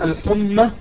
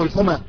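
First: The m sound is doubled and held long. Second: The m sound is single and short. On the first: "إما بتشديد الميم" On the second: "أو بتخفيفها"

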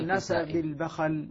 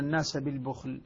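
First: The word has two a vowels throughout. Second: The word has a u vowel then no vowel. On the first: This is the reading of two particular reciters. "يفتحون الباء ويفتحون الخاء" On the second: This is the reading of most reciters. "الباء مضمومة والخاء ساكنة"

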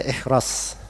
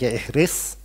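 First: The second syllable has an 'a' vowel. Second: The second syllable has an 'i' vowel. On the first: "bisa dibaca ihras" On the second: "Bisa dibaca ihris"

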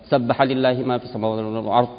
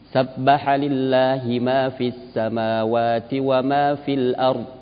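First: It is recited fast with some letters dropped. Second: It is recited slowly with every letter clear. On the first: The speaker calls it wrong. "tidak dibaca ... hilang hurufnya" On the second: The speaker calls it right. "yang dibaca jelas"

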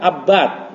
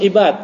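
First: The word begins with an 'a' vowel. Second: The word begins with an 'i' vowel. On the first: The speaker calls it right. "abad, nama seorang perawi" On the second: The speaker calls it wrong. "ini bukan ibad"

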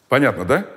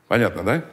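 Both takes have the same delivery.

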